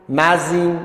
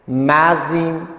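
First: Said in the usual way. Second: مزین drawn out slowly, syllable by syllable, as one joined word; slow linked reading. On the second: Shown as a demonstration. Teacher showing students the linked syllables, slow drawn-out demo. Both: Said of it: "هر دم از این".

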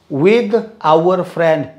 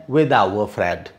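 First: "our" said as "a"; slow linked phrase. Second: Low variant; low quick take. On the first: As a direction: run "with our friend" together. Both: Shown as a demonstration. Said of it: "two or three pronunciations".

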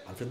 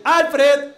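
First: Said in the usual way. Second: High, loud name call; dog-calling tone. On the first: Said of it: "Alfred va". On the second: Shown as a demonstration. Owner calling his little dog Alfred, high loud call. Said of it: "es el tono, uno dice".

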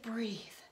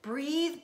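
First: Soft, unvoiced whisper; last whispered breathe. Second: Sharp, loud self-instruction; first loud call to breathe; urgent command to breathe. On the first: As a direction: let it fade to a breath. Calming herself down. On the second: Acted. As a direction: order your racing heart to calm. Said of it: "I said to my poundy heart".

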